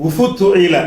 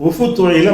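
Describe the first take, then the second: Both takes have the same delivery.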